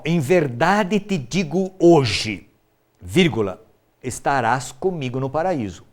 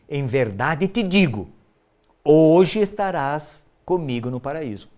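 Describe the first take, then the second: First: The pause comes right after 'hoje'. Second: The pause comes right before 'hoje'.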